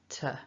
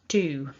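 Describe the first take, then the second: First: The word has a short schwa vowel. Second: The word has a long oo vowel. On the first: "the form with a schwa, which is t" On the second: "the strong form first, to, with that oo vowel. It's a long vowel"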